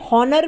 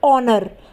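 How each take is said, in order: First: The word begins with an h sound. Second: The word begins with a vowel sound. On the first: The speaker calls it wrong. "बहुत से लोग इसे हॉनर भी बोलते हैं, जो कि बिल्कुल गलत है" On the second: The speaker calls it right. "एच क्या है, साइलेंट है"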